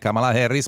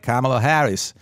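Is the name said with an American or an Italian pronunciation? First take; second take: Italian; American. First: The name is said with an Italian pronunciation. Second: The name is said with an American pronunciation. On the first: "non è Kamala Harris" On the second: "pronunciare anche tutti gli altri nomi all'americana"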